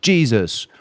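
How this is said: The name is said with English pronunciation. "It's spelled to English people Jesus"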